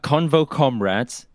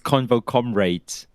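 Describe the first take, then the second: First: Comrades is said with an American pronunciation. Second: Comrades is said with a British pronunciation. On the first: "it's actually American" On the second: "The British way of pronouncing it"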